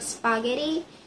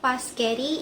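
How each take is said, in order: First: The word starts with the S P cluster. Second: The word starts with P, S moved later. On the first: "instead of" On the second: "The P and S sounds are switched in the initial cluster"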